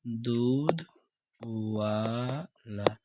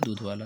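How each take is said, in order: First: A short pause separates the two words. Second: The two words run together without a pause. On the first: "इसको अगर हम सब तोड़ दें" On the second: "हम जोर से बोले दूध वाला"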